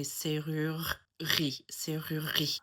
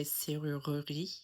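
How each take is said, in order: First: Serrurerie in a Parisian accent, middle E dropped. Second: Serrurerie in a Southern French accent, middle E sounded; Southern French, keep every syllable of serrurerie. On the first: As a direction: Parisian French, run the R's of serrurerie together without the E. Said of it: "in a Parisian accent". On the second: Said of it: "with a Southern French accent". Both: Shown as a demonstration.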